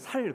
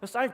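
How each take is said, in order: First: The first consonant is a plain, soft 's'. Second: The first consonant is a tense, strong 's'. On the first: The speaker calls it wrong. "말하다가 쌀 이야기 나면 살 그럽니다" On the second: The speaker calls it right. "쌀 되죠"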